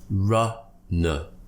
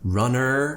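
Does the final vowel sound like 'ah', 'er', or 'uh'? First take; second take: uh; er. First: The word ends with a relaxed 'uh' sound. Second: The word ends with an r-coloured 'er' sound. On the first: The speaker calls it right. "relax your tongue in the middle of your mouth" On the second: The speaker calls it wrong. "with an er, like it more of an American style"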